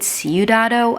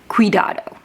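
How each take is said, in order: First: The word begins with a 'syoo' sound. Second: The word begins with a 'kwee' sound. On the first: The speaker calls it wrong. "I said Ciudado, and I think that's not city" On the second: The speaker calls it right. "I believe it's Cuidado"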